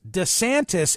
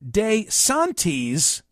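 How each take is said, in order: First: The name is said with English vowels. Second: The name is said with Italian vowels. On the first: The name has been adapted to English. "sloughing it off as DeSantis is common" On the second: This is the original form of the name. "DeSantis would be the proper Italian"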